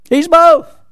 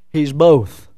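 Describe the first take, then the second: First: High, loud exclamation; preacher's ringing emphatic repeat. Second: Said in the usual way. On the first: Real, not acted. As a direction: drive the answer home, much louder and higher.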